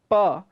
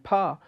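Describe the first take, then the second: First: The p is released without a puff of breath. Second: The p is released with a puff of breath. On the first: It means forest. "which is unaspirated" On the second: It means to split. "which is aspirated"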